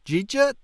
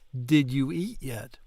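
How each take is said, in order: First: The words run together into two short syllables. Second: Each word is said separately and in full.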